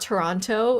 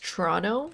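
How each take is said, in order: First: The second T is clearly pronounced. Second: The second T is dropped. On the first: The speaker calls it wrong. "it's not Toronto" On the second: The speaker calls it right. "We don't pronounce our T's uh, in the Canadian accent"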